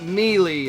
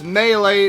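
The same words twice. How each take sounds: First: The first syllable sounds like 'meal'. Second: The first syllable does not sound like 'meal'. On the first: The speaker calls it wrong. "not Melee. This isn't mealworms" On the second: The speaker calls it right. "it's Melee"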